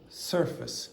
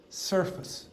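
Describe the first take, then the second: First: The second syllable is weak and reduced. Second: The second syllable is weak and reduced.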